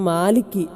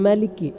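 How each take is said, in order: First: The first vowel is drawn out long. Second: The first vowel is kept short. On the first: The speaker calls it wrong. "അലിഫ് കൊടുക്കാൻ പാടില്ല ... എന്നല്ല" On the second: The speaker calls it right. "അത് സ്വഹീഹാണ്"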